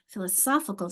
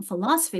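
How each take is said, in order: First: Philosophical with a strong SOPH; strong third syllable. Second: Philosophy with a strong LOS; strong second syllable. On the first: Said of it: "my strength has moved from". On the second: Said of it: "my strong syllable". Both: Shown as a demonstration.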